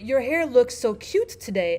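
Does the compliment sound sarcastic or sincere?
sincere. It sounds sincere, like a real compliment.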